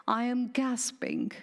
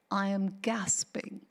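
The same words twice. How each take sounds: First: Said in the usual way. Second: Barely any voice, breath running out; a gasping, airless whisper; breathless whisper. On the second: Pretend.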